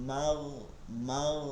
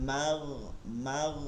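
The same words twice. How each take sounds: The two takes are said the same way.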